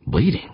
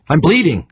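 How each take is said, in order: First: Puzzled question, rising high; wondering. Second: High, loud, frightened call; scared cry. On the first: Eavesdropping astronaut to himself, wondering. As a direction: ask it to yourself, pitch climbing. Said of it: "Gaeta wondered". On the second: Injured worker to crew over radio, scared cry. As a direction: call out in alarm, pitch way up. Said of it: "came another voice, scared". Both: A narrator's reading.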